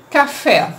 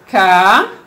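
First: Said in the usual way. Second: "café" split in two, drawn-out ca, long pause, then fé; teacher dividing "café" slowly into ca and fé; syllable by syllable. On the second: Shown as a demonstration. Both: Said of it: "Quando eu separo".

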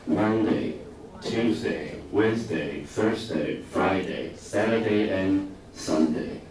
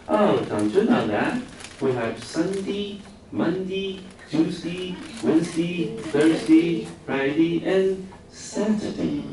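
First: Said in the usual way. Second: Put-on much higher, slow regional British accent, days said as Mundi, Tjusti, Wensdi. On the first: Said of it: "他在讲什么". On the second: British teacher explaining to puzzled students, in regional British accent. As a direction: recite the weekdays in a high regional British accent. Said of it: "真的英国各地的腔非常多".

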